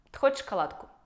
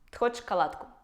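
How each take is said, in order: Both takes have the same delivery.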